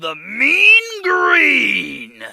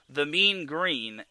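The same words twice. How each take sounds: First: The phrase is said in an exaggerated voice. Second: The phrase is said in a normal voice. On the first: The speaker calls it right. "say it like that" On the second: The speaker calls it wrong. "in like normal form"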